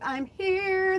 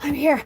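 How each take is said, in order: First: It is said calmly and slowly. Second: It is said frantically, with a gasp.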